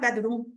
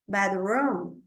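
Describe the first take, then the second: First: The vowel in the second syllable is short. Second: The vowel in the second syllable is long. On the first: The speaker calls it wrong. "Não é bedroom" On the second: The speaker calls it right. "Dois O sempre é longo"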